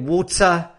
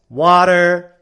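First: It is said in a British accent. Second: It is said in an American accent.

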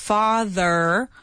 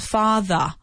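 First: It ends in a vowel coloured by an r. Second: It ends in a plain vowel with no r. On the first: "And then you have the American one, which is father" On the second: "In British English, it's a little bit different because they say they just have the A sound"

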